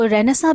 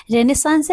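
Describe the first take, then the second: First: रेनेसां with the final s dropped; alternative pronunciation. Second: रेनेसांस with the final s sounded; correct pronunciation. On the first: Teacher showing how some people say it, रेनेसां without final s. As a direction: say रेनेसां, ending on a nasal vowel. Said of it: "कुछ लोग उसको रेनेसां भी बोलते हैं". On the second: Teacher giving learners the correct word, रेनेसांस with final s. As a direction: say रेनेसांस, ending on a clear s. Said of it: "इसका correct pronunciation रेनेसांस है". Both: Shown as a demonstration.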